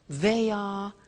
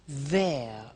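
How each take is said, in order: First: It is said as two full words. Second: It is said as one contracted word.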